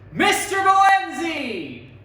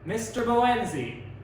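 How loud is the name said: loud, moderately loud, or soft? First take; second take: loud; moderately loud. First: The name is said loudly. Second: The name is said moderately loudly. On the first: "say our names forte" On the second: "say our name at the mezzo forte dynamic range"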